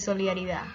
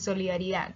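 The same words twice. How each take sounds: First: The word ends without the final d. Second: The word ends with a pronounced d.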